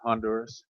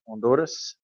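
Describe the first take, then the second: First: The first H sound is pronounced. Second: The first H sound is silent.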